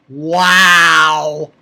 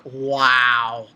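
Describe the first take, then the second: First: Loud, long amazed wow; big awed wow. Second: Low, drawn-out wow; awed wow. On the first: Reviewer stunned by the proposal, loud awed wow. Amazed reaction, repeated louder. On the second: Reviewer stunned by the proposal, low awed wow. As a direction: sink into a low amazed wow. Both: Real, not acted.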